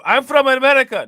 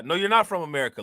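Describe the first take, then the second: First: High, loud, put-on foreign accent saying "America" as "Amedica"; mock foreign accent. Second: Said in the usual way. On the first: Mocking the migrant's claim, loud put-on foreign accent. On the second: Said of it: "nobody that's from America talks like that".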